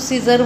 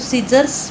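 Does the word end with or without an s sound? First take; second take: without; with. First: The word ends without a final s sound. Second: The word ends with a final s sound. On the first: The speaker calls it wrong. "कोई कोई लोग इसको सीजर बोलते हैं" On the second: The speaker calls it right. "सीजर्स बोलना है हमें"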